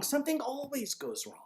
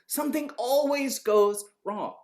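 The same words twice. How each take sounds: First: "Something always goes wrong" pitched high, without added volume; lighter, high-pitched insistence on "always goes wrong"; high, softer emphasis. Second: "Something always goes wrong" slowly, with "always" punched; slow, emphatic repeat. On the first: Stressing a warning, first take. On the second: Repeats the warning more slowly. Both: Real, not acted.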